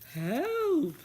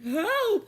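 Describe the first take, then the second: First: It is said quietly. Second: It is said loudly.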